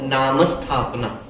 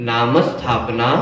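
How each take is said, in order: No difference in how they are said.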